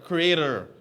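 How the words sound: The word is said with an American accent. "I know Americans say"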